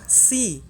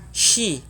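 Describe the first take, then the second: First: The consonant is a plain s sound. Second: The consonant is a hushing sh sound. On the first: The speaker calls it wrong. "bukan si" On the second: The speaker calls it right. "huruf sya, shi"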